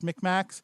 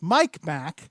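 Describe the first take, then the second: First: The first vowel is a short 'i' sound. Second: The first vowel is an 'eye' sound. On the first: "that's how it sounds or pronounced" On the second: "I think it says Mike Mac"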